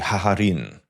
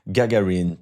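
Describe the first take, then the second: First: The name is said with H sounds. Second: The name is said with hard G sounds.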